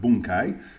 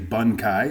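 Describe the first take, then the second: First: The first vowel is an 'oo' sound. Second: The first vowel is an 'uh' sound. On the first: The speaker calls it right. "because it's bun" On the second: The speaker calls it wrong. "I get annoyed when people say"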